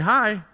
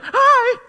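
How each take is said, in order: First: The greeting sounds flat and unenthusiastic. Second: The greeting sounds enthusiastic and lively.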